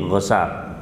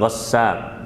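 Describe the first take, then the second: First: The s sound is short, said once. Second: The s sound is held long, doubled. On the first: "dengan takhfif, jadi nggak pakai tasdid" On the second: "bukan ghassaq"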